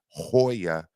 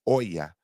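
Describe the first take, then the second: First: The word starts with an audible H sound. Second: The word starts directly with the vowel. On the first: The speaker calls it wrong. "it's not Hoya" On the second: The speaker calls it right. "You don't pronounce the H"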